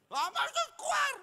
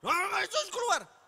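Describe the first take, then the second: First: Much higher, shouted exorcism command; mock exorcist shout. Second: Much higher, louder exorcism command; mock exorcist shout. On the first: Pastor mimicking friend casting out demon, hammed-up shout. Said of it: "teman saya ngusir setan". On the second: Pastor mimicking friend casting out demon, mock shout. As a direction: bark the demon out, hammed up. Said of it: "ini tan gurine ki tan setan apa Nathan".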